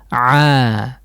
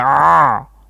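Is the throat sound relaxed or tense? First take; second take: relaxed; tense. First: The throat is loose and the sound is soft. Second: The throat is tight and the sound is hard. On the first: The speaker calls it right. "tapi dilepas" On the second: The speaker calls it wrong. "Jangan ah"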